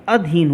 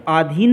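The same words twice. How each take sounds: First: "अधीन" opening on a short a, adheen; correct short vowel. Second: "आधीन" opening on a long aa, aadheen; "आधीन" as the wrong form; wrong long vowel. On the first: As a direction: clip the first vowel of "अधीन". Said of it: "अधीन होता है". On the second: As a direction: stretch the first vowel of "आधीन". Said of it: "यहाँ पर आधीन नहीं होता है". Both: Shown as a demonstration.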